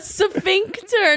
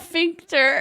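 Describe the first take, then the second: First: The word begins with an s sound before f. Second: The word begins directly with an f sound. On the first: The speaker calls it right. "A sphincter" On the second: The speaker calls it wrong. "not a fincter"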